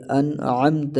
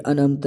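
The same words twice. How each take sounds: First: "انعمت" slowly with a strong throat ain; an-'amta, bring out ain in "انعمت"; clear ain. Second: "انعمت" as an-amta, plain vowel for ain; hamza for ain. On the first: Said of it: "یہ انعمت نہیں". ("انعمت" عین واضح کر کے) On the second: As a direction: skip the throat sound in "انعمت". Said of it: "عین کو حمزہ کر دیتے ہیں". ("انعمت" حمزہ کے ساتھ) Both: Shown as a demonstration.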